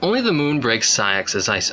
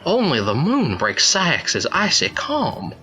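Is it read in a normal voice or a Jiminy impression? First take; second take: normal voice; Jiminy impression. First: It is read in the speaker's normal voice. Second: It is read imitating Jiminy's voice.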